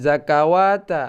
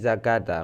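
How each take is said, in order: First: A 'wa' sound is inserted before the ending. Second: No 'wa' sound is inserted before the ending. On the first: The speaker calls it wrong. "bukan zakawata" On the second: The speaker calls it right. "akan tetapi zakata"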